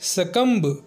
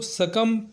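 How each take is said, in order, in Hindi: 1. "b" की ध्वनि बोली जाती है। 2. "b" की ध्वनि मूक है। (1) "कुछ लोग इसे सकम्ब प्रोनाउंस करते हैं, जो कि गलत है" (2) "इसको सकम पढ़ा जाना चाहिए"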